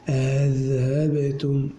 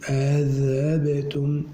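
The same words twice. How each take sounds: No difference in how they are said.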